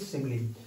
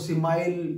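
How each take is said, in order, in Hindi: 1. यह शब्द 'ee' ध्वनि से खत्म होता है। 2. यह शब्द 'isle' ध्वनि से खत्म होता है। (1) "आप याद रखिएगा, इट इज सिमिली।" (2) "मैंने बहुत सारे लोगों को सिमाइल या इस तरह के उच्चारण करते हुए भी सुना"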